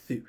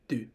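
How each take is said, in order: First: It starts with an interdental fricative. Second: It starts with a dental stop. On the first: "pronounced as at a interdental fricative" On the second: "I pronounced as a, a dental stop"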